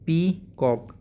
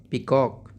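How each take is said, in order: First: peacock broken into two drawn-out beats, pee... cock; split into syllables. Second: Said in the usual way. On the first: Shown as a demonstration. Teacher breaking the word for pupils, syllable by syllable. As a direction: say peacock slowly, a pause between pee and cock. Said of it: "दो part में तोड़ दिया". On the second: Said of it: "peacock को हमने दो part में".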